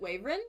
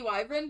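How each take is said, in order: First: The word is pronounced like 'waverin'. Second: The word is pronounced like 'wyvern'. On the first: This is how one family says it. "my family's always pronounced it Waverin" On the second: This is the standard pronunciation. "It's probably supposed to be Wyvern"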